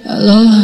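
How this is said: It is said softly, like someone just woken.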